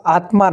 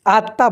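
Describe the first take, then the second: First: আত্মা as atma with the ম sounded, in a whisper; wrong pronunciation, whispered. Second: আত্মা as atta with a doubled t and silent ম; correct pronunciation. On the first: Teacher whispering the wrong আত্মা to pupils, atma. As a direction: whisper আত্মা as written, m clearly heard. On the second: Teacher telling pupils to say আত্মা as atta. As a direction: hold the t in আত্মা, drop the m. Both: Shown as a demonstration. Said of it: "আত্মা নয়".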